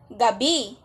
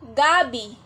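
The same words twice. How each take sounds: First: The stress is on the second syllable. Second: The stress is on the first syllable. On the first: It names the time between sunset and sunrise. "bibigat naman ang pagbigkas sa salitang gabi sa bi" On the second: It names a starchy root crop plant. "sa salitang gabi ay bibigat ang pagbigkas sa ga"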